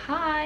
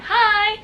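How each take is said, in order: First: Imitated soft, high little "hi"; small soft greeting. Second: Retold high-pitched, gushing "hi"; starstruck greeting. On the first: Idol greeting a fan as he signs, small soft hi. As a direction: say hi lightly, pitched up and quiet. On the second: Fan answering her idol's greeting, high excited hi. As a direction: squeal the hi back, much higher.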